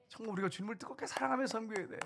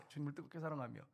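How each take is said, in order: First: Pitched high on 사랑하며, urging; emphatic exhortation. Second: Soft echo. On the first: Pastor urging the congregation to love, pitched high. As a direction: lift the voice to press the call. Preacher urges fervent love. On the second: Pastor echoing his plea to the congregation, hushed. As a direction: let the phrase fall to a hush. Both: Real, not acted.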